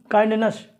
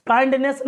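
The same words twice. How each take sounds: First: काइंडनेस ending in a reduced "nuhs"; correct ending demo. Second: काइंडनेस ending in a clear "ness", higher; wrong ending demo. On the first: Teacher recapping the right reading, carefully pronounced. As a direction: model काइंडनेस with schwa in last syllable. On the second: Teacher recapping the mistake, mispronounced. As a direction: show काइंडनेस with full e at the end. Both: Shown as a demonstration. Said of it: "काइंडनेस नहीं".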